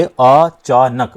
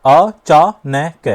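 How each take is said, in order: First: "अचानक" very slowly as अ, चा, नक with pauses; separated syllables. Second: "अचानक" very slowly as अ, चा, नै, कै; four separate beats for "अचानक", each ending in a vowel; over-split word. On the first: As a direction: split "अचानक" into three beats, keeping नक whole. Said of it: "अलग-अलग भी आप बोलोगे". ("अचानक" को अ... चा... नक, रुककर बोलें) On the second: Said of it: "अब ये अचानक नहीं आ रहा". ("अचानक" को अ... चा... नै... कै बोलें) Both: Shown as a demonstration.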